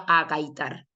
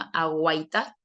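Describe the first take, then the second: First: No 'w' sound follows the first 'g'. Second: A 'w' sound follows the first 'g'. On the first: The speaker calls it wrong. "El verbo no es agaitar" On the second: The speaker calls it right. "sino que es aguaitar del verbo mirar"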